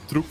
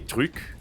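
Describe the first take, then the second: First: The vowel is not the French u sound. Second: The vowel is the French rounded u sound. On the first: This is a non-native mispronunciation. The speaker calls it wrong. "my mom can't pronounce that, so she always goes truc" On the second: This is how native French speakers say it. The speaker calls it right. "when French people say thing, they say truc"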